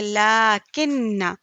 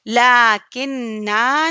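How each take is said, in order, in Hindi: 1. अंतिम लंबा 'a' स्वर छोड़ा जाता है। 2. अंतिम लंबा 'a' स्वर बोला जाता है। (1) "बल्कि" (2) "नहीं"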